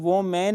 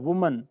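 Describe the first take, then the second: First: It begins with 'woh' and ends with 'man'. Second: It begins with 'woo' and ends with 'mun'. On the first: The speaker calls it wrong. "इसको वो मैन नहीं पढ़ना है" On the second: The speaker calls it right. "अब इसको वुमन पढ़ना है"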